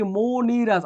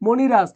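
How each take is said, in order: First: মণিরাজ slowed, first syllables drawn out; teacher sounding out মণিরাজ slowly; pronunciation demo. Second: Said in the usual way. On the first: Shown as a demonstration. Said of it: "এখানে হবে কি মণিরাজ". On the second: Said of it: "এখানে হবে কি".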